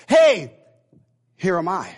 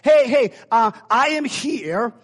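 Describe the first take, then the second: First: Punchy attention-getting call. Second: Loud, high, drawn-out announcement; calling for attention. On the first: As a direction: hail the group, pause, then present yourself. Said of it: "to get their attention was this". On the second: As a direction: call out to get a group's attention. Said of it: "If, if I was saying". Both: Pretend.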